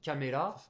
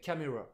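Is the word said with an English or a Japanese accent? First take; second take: Japanese; English. First: It is said with a Japanese pronunciation. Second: It is said with an English pronunciation. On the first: "ça nous donne caméra" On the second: "en anglais camera"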